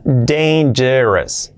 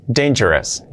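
First: "Dangerous" stretched syllable by syllable; very slow "Dangerous", DEIN-je-res; slow demonstration. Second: Said in the usual way. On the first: Shown as a demonstration. Teacher breaks down a tricky word: slow "Dangerous". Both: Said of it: "Esta palabra es complicada".

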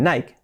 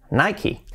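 First: "Nike" as "naik", silent e; "Nike" without any final vowel; one-syllable Nike. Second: "Nike" as "nai-ki", with a final i; "Nike" with an i added at the end; American Nike. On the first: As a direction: say "Nike" to rhyme with "bike". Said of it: "no dicen Nike". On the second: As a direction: say "Nike" in two syllables ending in "kee". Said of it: "Le añaden una I al final". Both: Shown as a demonstration.

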